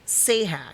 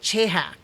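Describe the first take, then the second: First: The name begins with an s sound. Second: The name begins with a ch sound. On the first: This is how it is said in the series. "pronouncing it in the way and like Sahak" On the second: This is how the speaker would naturally read it. "I want to pronounce it like Chehak"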